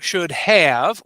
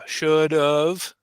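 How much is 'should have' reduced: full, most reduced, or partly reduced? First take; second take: full; partly reduced. First: Both words are said fully, with a clear 'have'. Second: The 'have' shrinks to a weak 'of' sound.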